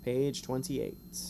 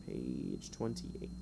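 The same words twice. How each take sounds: First: Said in the usual way. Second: Much lower and softer, slow and dramatic; deep mock voice. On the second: Shown as a demonstration. Game master repeating the page number to players in a deep mock voice. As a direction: drop into a deep, ominous slow read.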